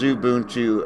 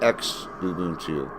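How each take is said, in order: First: The word begins with a 'z' sound. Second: The word begins with an 'ex' sound. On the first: "the X is uh, pronounced like a Z" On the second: "instead of"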